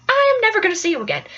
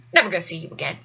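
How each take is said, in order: First: "I am" stressed, at normal pitch, then a quick finish; firm, with weight on "I am"; emphatic self-assurance. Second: Low, soft dismissal; low offhand undertone; private self-reassurance. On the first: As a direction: insist on "I am", then hurry through the rest. Reassuring herself, emphatic repeat. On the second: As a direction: toss it off quietly to yourself. Reassuring herself, first take. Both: Retold or imitated.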